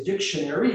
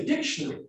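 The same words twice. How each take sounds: First: Said in the usual way. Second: DICTIONARY in an Australian accent, ending shortened. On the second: Shown as a demonstration. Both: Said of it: "also the way they would speak".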